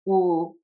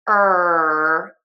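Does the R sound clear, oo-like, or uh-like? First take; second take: oo-like; clear. First: The R sounds rounded like oo. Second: The R sounds clear and tense. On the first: The speaker calls it wrong. "some people pucker too much" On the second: The speaker calls it right. "square, tense shapes, it's going to sound a lot better"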